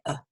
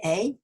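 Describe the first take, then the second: First: "a" reduced to a short "uh"; tiny unstressed "a", like "uh"; schwa a. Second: "a" said like the letter name, "ay"; strong-form "a", rhyming with day; full-vowel a. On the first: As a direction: say "a" as a weak, quiet schwa. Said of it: "we have a little schwa". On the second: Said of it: "we don't say a". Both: Shown as a demonstration.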